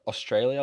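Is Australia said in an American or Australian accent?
Australian. The first part of the word is swallowed quickly. "when we say it, we kind of really swallow the first part"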